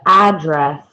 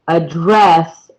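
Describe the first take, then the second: First: The stress is on the first syllable. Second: The stress is on the second syllable. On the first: It names a place where someone lives. "When it is used as a noun, we stress the first syllable" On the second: It is an action of speaking to someone. "In the second, we actually stress the second syllable"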